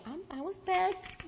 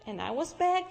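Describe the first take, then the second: First: "back" underlined, higher and slow; slow down and lean hard on "back"; making clear "I was back"; stress on back. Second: Said in the usual way. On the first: Retold or imitated. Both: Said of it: "and I underlined".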